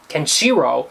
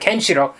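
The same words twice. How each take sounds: First: The stress falls in a typical English place. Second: The stress falls in the original Japanese place. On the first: The speaker calls it wrong. "which is normal for an English pronunciation of everything. The, the accent goes on the Kenshiro" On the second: The speaker calls it right. "instead of Kenshiro"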